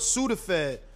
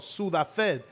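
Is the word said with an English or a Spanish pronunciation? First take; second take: English; Spanish. First: The word is said with English pronunciation. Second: The word is said with Spanish pronunciation.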